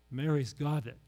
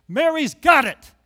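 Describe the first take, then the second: First: Said in the usual way. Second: "Mary's got it" much louder and higher, slow, hitting "got"; emphatic, louder. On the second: Real, not acted. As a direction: proclaim "got" like a preacher, slowly. Repeated, second time emphatic.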